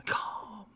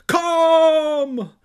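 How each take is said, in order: First: Voiceless, soft whisper; barely-there hush; whispered calming. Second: Very high, drawn-out scream; enormous wrathful bellow; wrathful calm. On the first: A narrator's reading. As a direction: whisper it soothingly. Soft take before the yelled ones. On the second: Acted. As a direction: scream the soothing word at full force. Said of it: "the wrath of calm".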